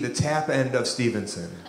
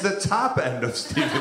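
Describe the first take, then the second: First: The second word has the vowel of 'tap'. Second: The second word has the vowel of 'top'. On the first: This is how it sounds in the local accent. "I thought it was the T A P" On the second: This is the standard form of the word. "It's the top end of Stevenson"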